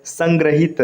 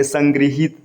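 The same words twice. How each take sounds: First: संग्रहित said as "sangrahit", with ra; wrong vowel. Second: संग्रहित said as "sangrihit", with ri; correct vowel. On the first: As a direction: sound "gra" in संग्रहित. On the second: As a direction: sound "gri" in संग्रहित. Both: Shown as a demonstration. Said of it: "ये कैसे लिखा गया".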